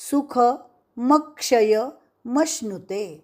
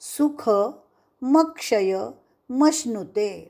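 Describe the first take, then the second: The two takes are said the same way.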